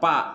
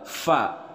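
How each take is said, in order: First: The syllable begins with a p sound. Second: The syllable begins with an f sound. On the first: The speaker calls it wrong. "bukan pa" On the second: The speaker calls it right. "tapi dibacanya adalah fa"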